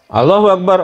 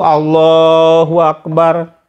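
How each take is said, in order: First: It is said hurriedly, rushed into the next. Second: It is said calmly, followed by a still pause.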